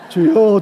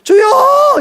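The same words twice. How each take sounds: First: The voice is relaxed and produced more easily. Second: The voice is forced and strained from the throat. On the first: This way of praying spares the throat. The speaker calls it right. "발성을 좀 바꿔보세요" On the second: This way of praying makes the throat hoarse. The speaker calls it wrong. "제가 이제 기도할 때 주여 이렇게 기도하거든요"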